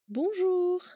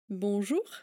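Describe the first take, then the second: First: The word is stretched out with lengthened vowels. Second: The word is said crisply at normal length. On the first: "Někdo to rád vyslovuje i takto prodlouženě" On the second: "Tak ještě jednou a zřetelně"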